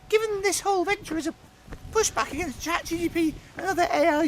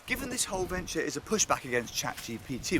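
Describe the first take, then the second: First: It is said in a squeaky imagined Gareth voice. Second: It is said in his natural voice.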